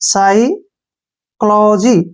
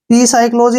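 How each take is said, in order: First: The initial p is silent. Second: The initial p is pronounced. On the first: The speaker calls it right. "साइक्लोजी ऐसे" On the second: The speaker calls it wrong. "पी साइक्लोजी नहीं पढ़ना है"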